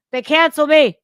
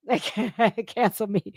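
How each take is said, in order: First: Incredulous, then loud; can't believe it, burst out with the second; mock outrage. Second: Repeating it while laughing; laughing through it. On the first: Mock outrage at being cancelled, louder second take. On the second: Laughing over being cancelled, repeating it. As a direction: chuckle the words out. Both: Real, not acted.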